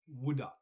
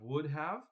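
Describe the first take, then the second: First: 'Have' is reduced to a short 'a' sound. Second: Both words are said in full, with clear 'have'.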